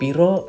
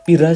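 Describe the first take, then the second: First: The word ends with an o vowel. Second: The word ends with a wide a vowel. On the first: "belakangnya o o o" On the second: "A ngomongnya ngapak istilahnya"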